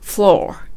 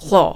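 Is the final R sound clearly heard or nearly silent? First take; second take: clearly heard; nearly silent. First: American-style, with a strong final R. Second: Australian-style, with the final R nearly silent.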